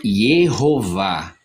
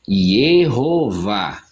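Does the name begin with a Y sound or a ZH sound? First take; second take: Y sound; Y sound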